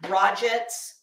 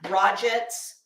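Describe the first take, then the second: First: The name is said as spelled, t sounded. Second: The same.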